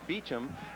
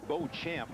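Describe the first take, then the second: First: The name is said as Beecham, two short syllables. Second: The name is said with an English Bo-champ sound. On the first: It is the family elder's version. "My father says Beecham" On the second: It sounds athletic. "I say Beauchamp. That sounds athletic"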